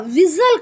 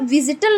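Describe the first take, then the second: First: The t sound is left out entirely. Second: The t sound is pronounced in the middle. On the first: The speaker calls it right. "विजल कहा, यानी आपने टी को silent कर दिया" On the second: The speaker calls it wrong. "विजिटल नहीं कहा"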